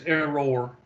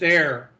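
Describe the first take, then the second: First: The word is said as two syllables, non-local style. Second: The word is said as one syllable, local style.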